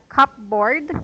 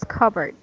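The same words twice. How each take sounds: First: Each written part is sounded out in full. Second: The word is said in its shortened spoken form. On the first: This is how the spelling looks. The speaker calls it wrong. "It it's like cupboard" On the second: This is how the word is really pronounced. The speaker calls it right. "but when you pronounce it, it's cupboard"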